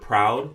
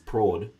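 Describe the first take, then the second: First: It is said with a Standard English pronunciation. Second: It is said with a Jamaican Patois pronunciation. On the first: "the word proud" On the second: "is prod in Patois"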